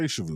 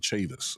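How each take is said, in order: First: The name ends in an oo vowel sound. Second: The name ends in an is sound. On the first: This is how outsiders would read the spelling. The speaker calls it wrong. "they don't say Chavou" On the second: This is how the local family says it. The speaker calls it right. "they say Chavis"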